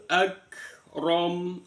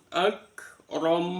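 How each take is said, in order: Both takes have the same delivery.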